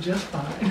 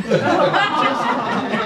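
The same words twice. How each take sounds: First: Soft, dry answer under a chuckle; quiet laughing reply. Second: Louder, chuckling echo of the punchline; laughing repeat. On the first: Retold or imitated. Wife answering her husband's declaration, softly amused. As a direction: let her answer slip out through a laugh. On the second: Real, not acted. Storyteller repeating the wife's punchline, laughing. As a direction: savour the line while laughing.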